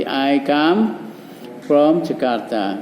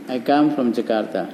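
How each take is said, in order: First: Slow, spelled-out model answer; slow model sentence. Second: Said in the usual way. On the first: Shown as a demonstration. Teacher modelling the answer slowly for pupils. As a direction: lay out each word slowly for the class. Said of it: "Ayo, sama dengan ini ngomongnya". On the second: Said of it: "Jawabnya begini ya".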